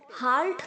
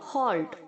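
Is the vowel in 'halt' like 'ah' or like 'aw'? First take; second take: ah; aw. First: The vowel sounds like 'ah'. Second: The vowel sounds like 'aw'. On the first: The speaker calls it wrong. "हाल्ट नहीं बोलेंगे आप" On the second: The speaker calls it right. "उसे हम ओ की तरह sound करेंगे"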